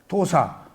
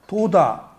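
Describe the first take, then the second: First: The middle consonant is an s sound. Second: The middle consonant is a d sound.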